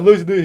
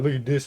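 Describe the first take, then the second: First: Louder, higher show-off call; boastful call. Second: Said in the usual way. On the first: Retold or imitated. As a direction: brag to everyone about lifting the desk. Big kid showing off strength.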